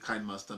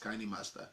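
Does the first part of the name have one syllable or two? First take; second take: One; Two. First: The first part is one syllable, like kind. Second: The first part is two syllables, like candy. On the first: The speaker calls it wrong. "we used to call it Kind Master before" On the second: The speaker calls it right. "we later discovered the pronunciation is Candy Master"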